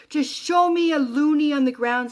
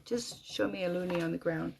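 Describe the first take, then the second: First: Loud, raised, insistent plea; retold inner scream. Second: Softer, usual pitch, dropping away; subdued plea. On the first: Widow begging Jeremy for a sign, screaming inwardly. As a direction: demand it higher and louder. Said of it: "I scream in my head". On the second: Retold or imitated. Widow's last request to Jeremy, hushed and resigned. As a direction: repeat the demand quietly, spent.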